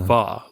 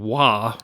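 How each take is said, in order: First: The syllable starts with a V sound. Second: The syllable starts with a W sound. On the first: The speaker calls it right. "it's actually a V" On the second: The speaker calls it wrong. "instead of me saying wa"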